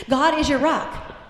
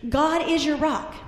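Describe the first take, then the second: The two takes are said the same way.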